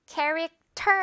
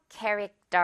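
First: 캐릭터 with a strong, aspirated 터; 캐릭터 ending on a crisp, clear T; wrong airy 터. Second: 캐릭터 as English character, no air on the T; tensed 떨 ending. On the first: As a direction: punch the last syllable of 캐릭터 with air. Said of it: "캐릭터 아니고 캐릭터". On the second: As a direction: let 캐릭터 end on a tight, weak 떨. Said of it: "된소리로 떨 발음". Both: Shown as a demonstration.

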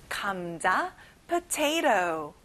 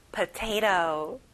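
First: "potato" with the second t flapped. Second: Slow American potato; slow flapped t. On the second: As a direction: say "Potato" slowly, t like a light r. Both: Shown as a demonstration. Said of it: "여기도 끝에 T 발음이 안 나죠".

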